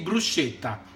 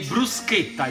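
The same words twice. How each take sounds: First: The middle sound matches British schedule. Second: The middle sound matches American schedule. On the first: The speaker calls it wrong. "you don't say bruschetta" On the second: The speaker calls it right. "you say bruschetta, like uh, you say schedule"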